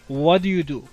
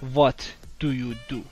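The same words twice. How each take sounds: First: The words are said quickly and run together. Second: Each word is said slowly and separately. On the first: The speaker calls it right. "وقتی که سریع تلفظش میکنن اینجوری میشه" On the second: The speaker calls it wrong. "نه"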